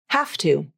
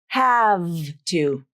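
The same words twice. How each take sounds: First: The final V sounds like an unvoiced F. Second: The final V keeps its full voicing. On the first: The speaker calls it right. "pronounced like an F consonant, so without any voicing" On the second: The speaker calls it wrong.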